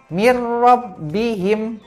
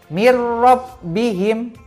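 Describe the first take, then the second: The two takes are said the same way.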